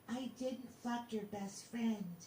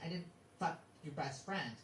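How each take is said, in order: First: The voice is soft and sweet. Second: The voice is plain, not sweetened. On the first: The denial sounds more convincing. The speaker calls it right. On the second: The denial sounds less convincing. The speaker calls it wrong.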